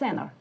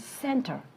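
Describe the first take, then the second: First: The t sound after n is dropped. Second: The t sound after n is pronounced.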